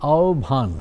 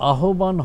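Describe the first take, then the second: First: The h and b merge into one bh sound. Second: The h and b sounds are said separately. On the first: The speaker calls it right. "আহ্বান হবে" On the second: The speaker calls it wrong. "ভেঙে দেয় ... এটা আহ্বান হবে না"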